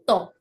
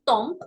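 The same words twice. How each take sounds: First: Tombe as a short French nasal tɔ̃. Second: Tomp with a hard final p, the wrong way. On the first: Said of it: "it's quel temps fait-il". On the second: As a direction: say tomp sounding the m and p. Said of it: "that's incorrect". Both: Shown as a demonstration.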